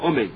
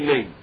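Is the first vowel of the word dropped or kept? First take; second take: kept; dropped. First: The first vowel is clearly sounded. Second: The first vowel is dropped entirely. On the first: The word is said in full. The speaker calls it right. "You have to say with a commas under the Aleph" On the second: The word is swallowed and cut short. The speaker calls it wrong. "You just say name"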